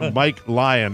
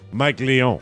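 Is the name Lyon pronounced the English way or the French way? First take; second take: English; French. First: Lyon is pronounced the plain English way. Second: Lyon is pronounced the French way.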